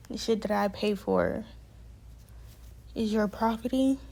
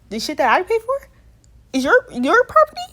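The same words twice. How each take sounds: First: Restrained disbelief. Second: Loud, sharply rising disbelief; incredulous outrage. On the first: Resident repeats staff's claim on their belongings, restrained disbelief. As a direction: repeat the claim evenly, holding the outrage in. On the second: Resident challenges staff claim on their belongings, incredulous and loud. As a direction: throw it back as a high, indignant question. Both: Retold or imitated.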